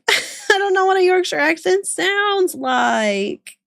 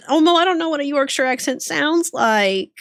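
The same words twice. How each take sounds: First: High, drawn-out, laughing whine; laughing protest. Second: Raised-pitch protest; helpless protest. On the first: Streamer asked for an accent, laughing helpless protest. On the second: Streamer asked for an accent, helpless protest. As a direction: plead ignorance, pitch lifted. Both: Real, not acted.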